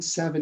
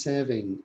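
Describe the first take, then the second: First: Said in the usual way. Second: "seven" with a learner's slip, ending like "-ing"; mispronounced seven. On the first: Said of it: "if we think seven is seven". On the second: Shown as a demonstration. Teacher showing learners' misheard numbers, mispronounced "seven" like "saving". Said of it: "do they mispronounce".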